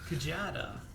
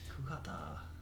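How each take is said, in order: First: The middle consonant is a J sound. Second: The middle consonant is an H sound. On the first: "Kujada sounds fine to me" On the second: "sometimes the J isn't comes out like an H"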